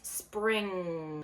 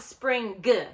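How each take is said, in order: First: The word ends in a nasal with no G. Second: The word ends with a released hard G. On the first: The speaker calls it right. "it's spring" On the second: The speaker calls it wrong. "we don't pronounce that hard G. So it's not spring g"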